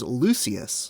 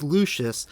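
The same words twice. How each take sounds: First: "Lucius" said LOO-see-us; audiobook pronunciation of Lucius. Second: "Lucius" said LOO-shus; usual pronunciation of Lucius. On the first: Host quoting the U K audiobook's Lucius, S pronunciation. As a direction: say "Lucius" with an S sound, not SH. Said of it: "in the U K audiobook, he pronounces it as". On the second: Host saying how they always thought Lucius went, SH pronunciation. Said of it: "he pronounces it as Lucius". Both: Shown as a demonstration.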